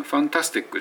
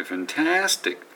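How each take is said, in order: First: ファンタスティック said quick and flat in even beats; flat katakana fantastic. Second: ファンタスティック with タ ringing high and rising; stress on TA. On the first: Teacher contrasting the flat wrong version of ファンタスティック. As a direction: rush ファンタスティック flat, Japanese style. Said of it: "じゃなくて". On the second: Teacher showing ファンタスティック with タ raised high. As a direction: let タ soar in ファンタスティック. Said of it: "ターっていうと高鳴るように". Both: Shown as a demonstration.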